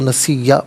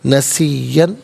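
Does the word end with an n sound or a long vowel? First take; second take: long vowel; n sound. First: The word ends with a long a vowel. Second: The word ends with an n sound. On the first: The reader stops here. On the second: The reading continues without stopping.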